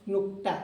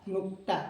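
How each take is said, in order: The two takes are said the same way.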